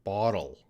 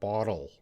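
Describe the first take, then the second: First: The middle consonant is a soft D sound. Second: The same.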